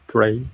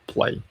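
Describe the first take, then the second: First: The word begins with an R sound. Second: The word begins with an L sound. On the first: The speaker calls it wrong. "when I started to study English, I'm always like pray, pray... like a religion" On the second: The speaker calls it right. "recently I feel... grow up my pronunciation like play, play"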